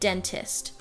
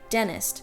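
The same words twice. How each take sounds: First: The T after the N is pronounced. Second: The T after the N is dropped. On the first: The speaker calls it wrong. "not dentist" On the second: The speaker calls it right. "I will leave out the T's ... or I will say dentist"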